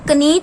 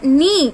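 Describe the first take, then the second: First: A k sound is heard before the n. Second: The word starts directly with an n sound. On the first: The speaker calls it wrong. "उसका sound हम कनी तो नहीं बोल रहे" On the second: The speaker calls it right.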